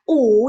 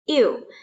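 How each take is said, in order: First: It is a plain back rounded u sound. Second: It glides from i into u. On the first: "Ini bukan dibaca U" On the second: "bukan juga dibaca iu"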